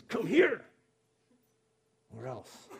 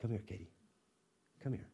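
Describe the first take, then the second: First: Sharp, high bark of come here; a harsh parent's threat; demanding command. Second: Soft, tender come here; gentle mother. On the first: Stern parent summoning a child with a harsh call. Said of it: "that demanding tone that says". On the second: Neighbor mom gently calling daughter Katie, soft and tender. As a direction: coax the little girl in softly. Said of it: "a mom saying". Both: Retold or imitated.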